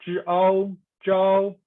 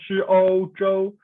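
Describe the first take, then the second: First: "zhi ao zhao" slow, "ao" opened wide like "ow" in "cow", so "zhao" rhymes with "now"; teacher stresses "zhao" and stretches it slowly so it sounds unlike "zhou"; ao syllable demo. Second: Teacher stresses "ou" so students hear it end in "oh"; ou syllable demo. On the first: Teacher contrasting zhao with zhou for students, slow wide ao demo. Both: Shown as a demonstration. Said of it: "could you hear the differences".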